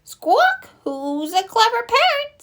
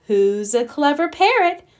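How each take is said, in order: First: Very high parrot mimicry; high-pitched bird voice, parroting the words; squawking parrot. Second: Lightly voiced granny praising her pet bird; a touch higher, prompting a parrot to repeat; coaxing a parrot. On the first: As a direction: squawk it back like a pet parrot. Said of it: "Polly is very good at repeating". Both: A narrator's reading.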